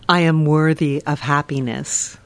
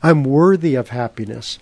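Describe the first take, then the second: First: It is said in a changed, different voice. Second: It is said in the speaker's usual voice.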